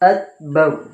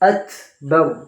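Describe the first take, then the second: First: The first consonant has no breathy release. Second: The first consonant has a breathy release. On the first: Listeners cannot tell which letter was said. The speaker calls it wrong. "যদি হামস কায়দা করা না হয়" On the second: Listeners can clearly tell which letter was said. The speaker calls it right. "যদি আমি হামস করি"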